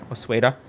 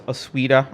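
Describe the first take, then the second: First: Osueda with an "ay" sound, oh-SWAY-duh; alternate name pronunciation. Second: Osueda with an "ee" sound, oh-SWEE-duh; alternate name pronunciation. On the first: Second try at a surname, Osueda said as oh-SWAY-duh. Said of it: "do you know Carlos Osueda". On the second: Trying out the guest's surname, Osueda said as oh-SWEE-duh. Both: Shown as a demonstration.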